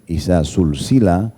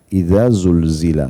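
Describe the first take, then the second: First: The word begins with a voiceless, hissing s sound. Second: The word begins with a voiced, buzzing z sound. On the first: Linked one after another in a chain. The speaker calls it wrong. "kita bacanya pakai sin" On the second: When the earth is shaken violently. The speaker calls it right. "dan zainya itu lidahnya bergetar"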